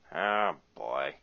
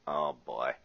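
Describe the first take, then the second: First: It is said in a put-on cartoon voice. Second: It is said in the speaker's normal voice.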